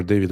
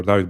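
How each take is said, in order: First: "David" with first syllable like "day"; English DAY-vid. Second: "David" with an open "ah" first; DAH-vid. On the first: Host checking a friend's name, "David" as DAY-vid. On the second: Host checking a friend's name, "David" as DAH-vid. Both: Shown as a demonstration. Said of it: "I don't know if you are David or David".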